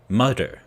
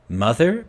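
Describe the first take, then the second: First: The middle consonant is a hard d sound. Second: The middle consonant is a soft th sound. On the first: The speaker calls it wrong. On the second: The speaker calls it right.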